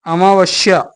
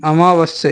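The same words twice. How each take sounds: First: अमावस्या ending in sh-ya; wrong sibilant. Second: अमावस्या ending with a clean s; correct sibilant. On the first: Teacher rejecting a misspelling, अमावस्या said with sh. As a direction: put a sh in the end of अमावस्या. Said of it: "नहीं". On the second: Teacher giving the right spelling, अमावस्या with s. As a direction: keep the plain s in अमावस्या. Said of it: "ये वाला सा". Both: Shown as a demonstration.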